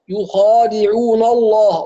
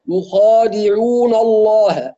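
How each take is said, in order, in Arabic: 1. النون تُفخَّم كاللام بعدها. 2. النون تُفخَّم كاللام بعدها.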